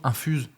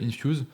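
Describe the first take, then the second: First: The word is pronounced the French way. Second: The word is pronounced the English way. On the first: The speaker calls it wrong. "quand on le dit à la française, c'est pas très beau" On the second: The speaker calls it right. "En anglais, c'est mieux"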